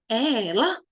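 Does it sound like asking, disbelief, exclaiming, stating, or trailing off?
asking. The voice rises at the end like a question. The speaker wants to know who it is. "Estou fazendo uma pergunta"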